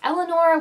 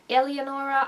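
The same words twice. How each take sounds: First: The name is said without an Italian accent. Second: The name is said with an Italian accent. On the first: "what it would look like without like an Italian accent" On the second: "it also sounded sometimes like they were saying like"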